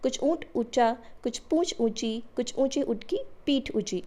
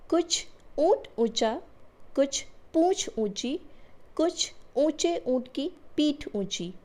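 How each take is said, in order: First: It is read quickly, like a tongue twister. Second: It is read at a normal pace.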